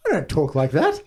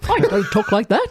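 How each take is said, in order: First: Lightly attempted movie-star impression; a hint of an old film star's voice, half-hearted; Cary Grant. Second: Higher second stab at a movie-star impression; badly faked film-star voice, pitched up a little; Cary Grant. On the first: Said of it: "Can anyone do it effectively?". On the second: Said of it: "that's a second attempt".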